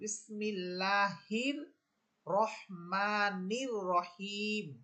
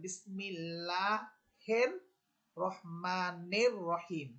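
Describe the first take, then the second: First: The vowels before r sound like 'i'. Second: The vowels before r sound like 'e'. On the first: The speaker calls it right. "বরং এখানে হবে রস্যিকার উচ্চারণ" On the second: The speaker calls it wrong. "এখানে একার দিয়ে পড়তেছে"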